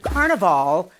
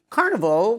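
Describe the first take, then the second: First: The word is said in a fancier pronunciation. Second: The word is said in an ordinary pronunciation. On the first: It is the elegant name of the quilt. "that's a little fancy" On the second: It is the everyday fair from childhood. "which is kind of what I went to as a child"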